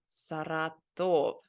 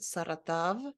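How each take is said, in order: First: Saratov slow, with a long O in TOV; slow, careful Saratov ending in a round O; full final O. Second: Saratov with the last O turned to ah, sara-tav. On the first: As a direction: draw out "Saratov" as sara-TOV, clear O at the end. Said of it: "Or is it Saratov?". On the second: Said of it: "maybe you're supposed to say it like Saratov". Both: Shown as a demonstration.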